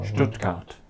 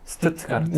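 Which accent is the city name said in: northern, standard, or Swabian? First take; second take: standard; northern. First: It starts with 'sht' and keeps both t sounds. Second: It starts with 'st' and keeps both t sounds. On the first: "슈투트가르트가 맞습니다" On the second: "브레멘 동네 가면 슈투트가르트라고 안 합니다"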